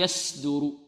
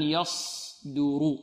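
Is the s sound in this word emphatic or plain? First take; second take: plain; emphatic. First: The s sound is plain, like seen. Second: The s sound is emphatic and heavy. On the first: The speaker calls it wrong. "إذا أردنا أن ننطقها سين فنقول يصدر، هذه سين" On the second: The speaker calls it right. "إذن يصدر"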